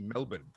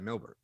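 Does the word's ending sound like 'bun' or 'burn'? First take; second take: bun; burn. First: The ending sounds like 'bun', with no R. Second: The ending has an R sound, like 'burn'. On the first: This is how most locals say it. The speaker calls it wrong. "according to Australians, it's actually Melbourne, as though on the end it's B U N" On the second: This is how a few locals say it. The speaker calls it right. "I try and actually add the R back in"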